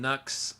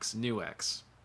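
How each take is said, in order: First: The name is said as one syllable. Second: The name is said as new plus X. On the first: The speaker calls it wrong. "I always say that wrong" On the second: The speaker calls it right. "new and then arrow X"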